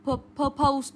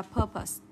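First: Purpose said as "pur-POZE", long OH; mispronounced purpose. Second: Purpose as "PUR-pus", short schwa ending; correct purpose. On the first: Teacher mimicking students' common mistake, purpose wrongly as "pur-pose". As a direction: drag out the second syllable of purpose like "pose". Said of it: "các em hay đọc sai này". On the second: Teacher correcting the students, purpose said as PUR-pus. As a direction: stress the first syllable of purpose, reduce the second. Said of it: "Chúng ta sẽ đọc là". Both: Shown as a demonstration.

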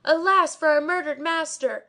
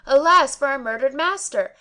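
First: High, loud lament in a changed voice; mad shouting. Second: Louder, higher report of the crowd's cry; quoted outcry. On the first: A narrator's reading. Barber shouting wildly before the crowd. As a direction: wail like a madman. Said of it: "shouting like a madman". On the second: Retold or imitated. Servant reporting the crowd's cry to the Kazi. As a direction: repeat the crowd's wail. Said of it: "all crying out".

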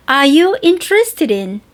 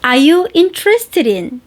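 No difference in how they are said.

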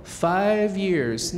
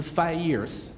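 First: "five years" with the v clearly sounded on "five"; correct v sound. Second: "five years" said as "fai years", the v dropped; wrong, v dropped. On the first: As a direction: keep the v in "five". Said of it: "那个v还是在的". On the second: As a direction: mimic the mistake without the v. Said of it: "啊，不是". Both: Shown as a demonstration.

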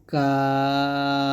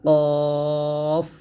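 First: কাফ held very long with a light, thin sound; slow, sustained, light কাফ; thin articulation. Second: Heavy কফ held long from the tongue root; long, full-mouthed কফ; thick articulation. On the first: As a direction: stretch কাফ thinly, tongue slightly forward. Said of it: "কাফটা পাতলা করে উচ্চারণ করবে". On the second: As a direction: stretch কফ out with a thick back sound. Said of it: "মোটা করে উচ্চারণ করতে হবে". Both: Shown as a demonstration.

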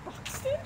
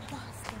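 First: High Bahston; Boston said high, Bahston; Boston accent. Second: Said in the usual way. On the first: Shown as a demonstration. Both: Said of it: "Boston accent".

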